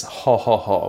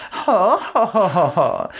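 First: Said in the usual way. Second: High, haughty mock laugh falling away; rich-girl shoujo laugh. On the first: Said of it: "the laugh that a rich girl does in shoujo". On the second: Shown as a demonstration. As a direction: crow it like a scheming princess. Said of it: "which is supposed to be like".

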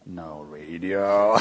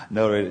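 First: Slow drawn-out. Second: Said in the usual way. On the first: Shown as a demonstration.

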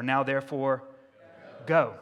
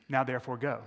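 First: Now therefore, go, with go hit hard; stress on go. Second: Said in the usual way. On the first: Shown as a demonstration. Preacher to congregation, pressing go hard. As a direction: land on the word go. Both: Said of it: "the short word that comes after therefore".

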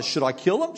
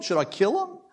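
First: Eager shouted question, higher; king shouting to Elisha, first ask. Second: Same question pitched much higher; king asking again, more eagerly; higher shouted repeat. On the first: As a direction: call out the question urgently. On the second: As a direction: push the repeat up into an excited shout. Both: A narrator's reading. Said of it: "he shouted out".

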